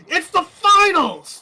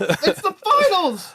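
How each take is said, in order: First: Shrill excited yell, voice cracking. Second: High slow yell that breaks; voice cracking. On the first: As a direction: scream it so the voice breaks. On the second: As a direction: shout it till the voice cracks. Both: Real, not acted. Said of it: "My voice cracked".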